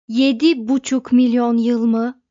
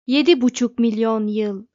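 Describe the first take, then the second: First: Emphatic outcry, much louder; shouted disbelief. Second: Loud, matter-of-fact computer verdict; forceful, level declaration; computer's pronouncement. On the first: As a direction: cry it out as an astonished question. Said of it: "diye haykırdılar koro halinde". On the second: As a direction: announce it firmly as a statement. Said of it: "dedi derin düşünce". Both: A narrator's reading.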